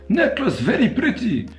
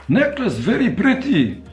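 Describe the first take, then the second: Both takes have the same delivery.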